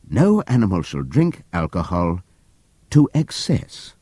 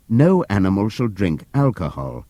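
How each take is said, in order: First: To excess slowed and pointed; stress on TO EXCESS. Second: Said in the usual way. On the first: A narrator's reading. Narrator revealing the altered commandment, slow stress on to excess. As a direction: lean on the added words to excess.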